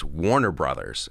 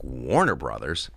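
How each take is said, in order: First: Said in the usual way. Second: Low, slow wondering question; puzzled surprise. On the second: Retold or imitated. Comic seeing caller ID, low puzzled question. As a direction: say it slowly, rising in disbelief.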